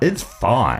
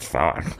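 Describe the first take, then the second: First: It sounds relaxed and genuinely accepting. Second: It sounds grudging, as if not really fine. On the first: It really is okay. The speaker calls it right. "That's better" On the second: It is not really okay. The speaker calls it wrong. "we're getting further away from it again now"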